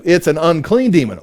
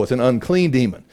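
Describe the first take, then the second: First: Said in the usual way. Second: It's an unclean demon said lower and softer as a dawning aha; low, quiet realization. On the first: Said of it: "who's upset about that? It's like". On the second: Shown as a demonstration. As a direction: drop the voice on unclean demon, like it just sank in.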